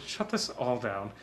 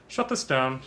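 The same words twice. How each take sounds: First: Soft, muttered order to shut down; quieter Walter Peck. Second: Stern bureaucrat ordering a shutdown; curt official voice; Walter Peck impression. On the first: Retold or imitated. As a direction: repeat the order much softer. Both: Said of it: "looking a little like Walter Peck".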